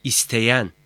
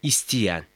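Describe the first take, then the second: First: "isteyen" with an open e before y; written-form vowel. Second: "İsteyen" said as istiyen; colloquial narrowed vowel. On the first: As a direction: keep the e unnarrowed in "isteyen". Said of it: "Doğru yazım". ("isteyen", açık e ile) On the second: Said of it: "Yanlış yazım". ("İsteyen", e yerine i ile) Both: Shown as a demonstration.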